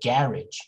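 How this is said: It is said the British way. "in British English, they would say garage"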